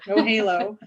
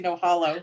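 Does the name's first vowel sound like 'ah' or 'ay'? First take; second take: ay; ah. First: The name's first vowel sounds like 'ay'. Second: The name's first vowel sounds like 'ah'. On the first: The speaker calls it right. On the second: The speaker calls it wrong.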